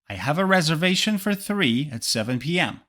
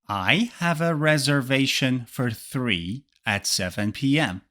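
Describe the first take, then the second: First: The sentence is spoken at natural speed. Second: The sentence is spoken slowly. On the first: "the second time, I will read it with natural speed" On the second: "The first time, I will read it slowly"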